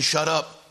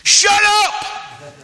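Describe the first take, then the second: First: Said in the usual way. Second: Very loud, high shout; blunt shouted rebuke. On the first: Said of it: "is a nice way of saying". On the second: Acted. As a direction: bellow it to silence someone. Acts the crowd's blunt version.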